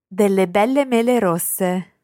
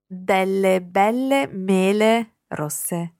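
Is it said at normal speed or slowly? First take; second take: normal speed; slowly. First: It is said at normal speed. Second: It is said very slowly.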